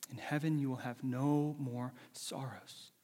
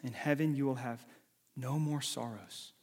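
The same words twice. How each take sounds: The two takes are said the same way.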